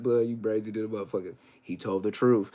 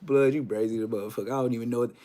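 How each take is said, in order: First: Low, deadpan verdict; mock lie detector verdict. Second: Low, quick deadpan verdict; mock lie detector verdict. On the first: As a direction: announce it coolly like an examiner. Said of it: "I'm gonna be just like this". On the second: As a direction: rattle it off like an examiner.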